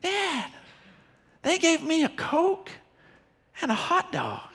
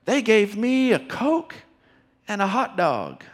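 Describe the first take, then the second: First: Put-on much higher, soft, delighted little boy voice; a small boy thrilled with his free treats; excited child. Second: Put-on child's voice. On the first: Five-year-old son telling dad a third time, high and delighted. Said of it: "He says it a third time". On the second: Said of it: "And then I hear him say".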